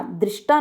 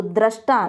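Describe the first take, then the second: First: दृष्टा as "drish-taa"; mispronunciation demo. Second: दृष्टा as "drash-taa"; correct pronunciation. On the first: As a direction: say दृष्टा with an i after "dr". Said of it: "नहीं होता". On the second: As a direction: say दृष्टा with an a after "dr". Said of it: "एक शुद्ध शब्द है". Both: Shown as a demonstration.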